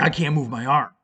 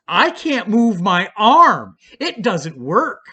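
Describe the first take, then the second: First: Said in the usual way. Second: "I can't move my arm" slow, higher and louder, stress on "arm"; insistent complaint. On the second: Retold or imitated. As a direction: drag out "arm" with desperate emphasis. Desperate about his arm.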